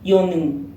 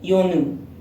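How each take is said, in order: Both takes have the same delivery.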